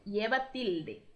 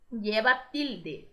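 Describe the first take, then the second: First: Said in the usual way. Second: Lleva tilde said slowly, stress on LLE; teacher modelling the Spanish term; slow model phrase. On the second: Shown as a demonstration. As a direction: drag out lleva tilde for learners. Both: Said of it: "a gente fala".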